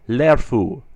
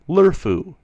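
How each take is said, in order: First: The first vowel is a clear e sound. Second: The first vowel is a blurred schwa-like sound. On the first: The speaker calls it right. "I try to pronounce it very closely to the E in error" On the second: The speaker calls it wrong. "sometimes sound like they are spelled lerfu, verba, curlo, with the sound"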